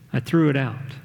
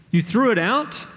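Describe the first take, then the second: First: Casual. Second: High, incredulous rising question; mad disbelief. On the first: Dad admitting to his son what he did, casual. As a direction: let it drop casually, no big deal. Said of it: "his dad answered casually". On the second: Augie confronting his dad over the helmet, incredulous and mad. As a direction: echo it back appalled, pitch shooting up. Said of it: "saw how mad I was". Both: A narrator's reading.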